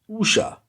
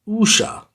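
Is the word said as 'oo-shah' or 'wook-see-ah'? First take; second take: oo-shah; oo-shah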